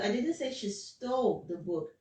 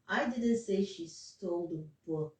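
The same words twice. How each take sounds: First: The word stole carries the main stress. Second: The word book carries the main stress. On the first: She probably took it. "there's stress on the stole" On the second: She stole something else, not the book. "that's what I was stressing on"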